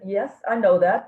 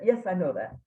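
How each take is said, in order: First: Louder, pointed reply with a rising end; a cheeky "of course I know" thought aloud; sassy inner retort. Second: Said in the usual way. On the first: Retold or imitated. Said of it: "I thought, I didn't say that last part". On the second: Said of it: "I just said".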